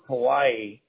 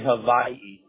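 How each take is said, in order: First: The middle consonant is a W sound. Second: The middle consonant is a V sound. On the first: The speaker calls it wrong. "You know how you pronounce Hawaii?" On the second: The speaker calls it right. "It's actually Hawaii. The W is pronounced as a V out here"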